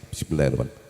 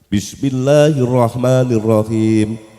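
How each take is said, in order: First: It is said quietly, almost under the breath. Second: It is said loudly and clearly.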